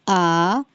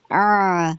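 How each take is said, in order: First: Said in the usual way. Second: آ squeezed from the mid throat, pushed inward; آ tight and constricted; squeezed ain vowel. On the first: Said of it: "حمزہ کی آ". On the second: Shown as a demonstration. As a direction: wring out the آ for ain. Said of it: "اور عین کی آ".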